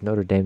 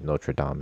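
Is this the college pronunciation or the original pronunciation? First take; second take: college; original. First: The name is said the US college way. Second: The name is said the original way. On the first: It names the college in the U.S. "the one in the college in the U.S" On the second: It names the actual original one. "is the actual one"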